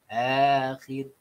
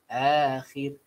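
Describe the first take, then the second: Both takes have the same delivery.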